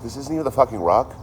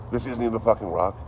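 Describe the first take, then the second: First: Louder and higher, a rising outraged question; can't believe it isn't the real rock; outraged disbelief. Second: Said in the usual way. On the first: Retold or imitated. Retelling his reaction to the guide, outraged disbelief. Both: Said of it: "I'm like".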